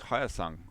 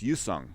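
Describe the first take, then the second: First: The name begins with an audible H sound. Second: The name begins without any H sound. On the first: "You you actually do pronounce the H" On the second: "In Korea, they don't pronounce the H"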